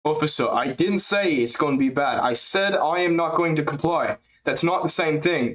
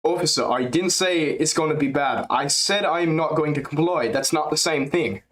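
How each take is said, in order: First: Put-on higher voice with a light Dutch-leaning accent; steady, firm, a touch foreign; improving DDP impression. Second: Put-on higher voice, firmer light Dutch accent; better DDP impression. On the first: Streamer retrying DDP impression, light European accent. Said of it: "we're getting better". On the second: Streamer nailing DDP impression, light Dutch-tinged accent. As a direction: deliver it like a stubborn Dutch fighter. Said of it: "That's actually good".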